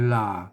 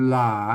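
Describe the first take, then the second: No difference in how they are said.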